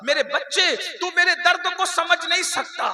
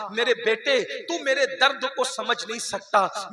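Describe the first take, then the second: First: Emphatic repeat. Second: Said in the usual way. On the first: Acted. Mother telling her son he cannot understand her pain, higher, louder lament.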